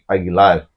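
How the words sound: The name is said with a Spanish pronunciation. This is the original pronunciation. "with the accent is Agu- Aguilar"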